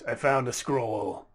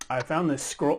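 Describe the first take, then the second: First: It is said in a put-on slug voice. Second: It is said in the speaker's normal voice.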